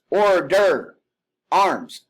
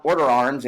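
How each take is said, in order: First: "order" drawn out higher, pause, "arms" loud; pause before arms. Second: Said in the usual way. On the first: Shown as a demonstration. Instructor demonstrating the order arms command. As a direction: stretch "order", then bark "arms". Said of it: "have that pause between". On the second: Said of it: "It's not order arms".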